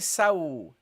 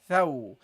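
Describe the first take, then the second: First: The syllable begins with a hissing s sound. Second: The syllable begins with a soft th sound. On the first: The speaker calls it wrong. "Don't say sau" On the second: The speaker calls it right. "your start should be tha, tha, thou"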